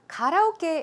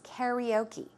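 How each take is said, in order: First: The word is said with Korean pronunciation. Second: The word is said with American English pronunciation. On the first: "how we pronounce it in Korean" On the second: "the American English way to pronounce it"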